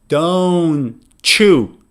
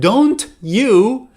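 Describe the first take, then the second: First: The t and y merge into ch. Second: The t and y are said separately. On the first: "they would say don't you" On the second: "instead of don't you"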